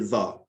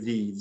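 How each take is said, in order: First: It is said the way used before consonants. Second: It is said the way used before vowels. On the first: "in front of a consonant sound, wheel, we say the" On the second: "In front of a vowel sound, automobile, we say the"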